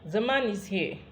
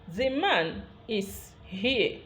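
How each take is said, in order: First: The shortened 'is' joins onto 'man'. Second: Each word is said separately and in full. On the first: "when you are speaking it in connected speech" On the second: "I have called this sentence um, word by word"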